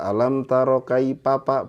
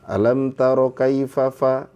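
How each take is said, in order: First: The consonants are pronounced as p sounds. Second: The consonants are pronounced as f sounds. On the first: The speaker calls it wrong. "kenapa dibaca papa? ... sudah nggak murni" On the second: The speaker calls it right. "Aslinya dari Allahnya itu fafa"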